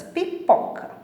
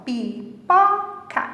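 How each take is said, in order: First: Said in the usual way. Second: "Pipoca" in three long, separate beats; syllable by syllable. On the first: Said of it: "observa a palavra e a separação das sílabas". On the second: Shown as a demonstration. Teacher showing children the three parts of a word, syllable by syllable. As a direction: stretch "Pipoca" slowly, pausing between syllables. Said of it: "podemos separá-la em três partes".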